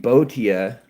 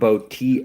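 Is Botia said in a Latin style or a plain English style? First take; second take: Latin style; English style. First: It is said in a Latin-style pronunciation. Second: It is said in a plain English pronunciation. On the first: The speaker calls it right. "in Latin it was probably be Botia" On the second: The speaker calls it wrong. "not Botia"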